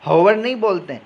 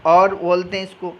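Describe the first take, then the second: First: हॉवर with a sounded h at the start; wrong aspirated h. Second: और said with no h, like our; silent h. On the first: Teacher showing the wrong way, h sounded in हॉवर. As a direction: say हॉवर breathing out a clear h. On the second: Teacher giving the right sound of our, no h. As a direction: say और starting straight on the vowel, h dropped. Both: Shown as a demonstration.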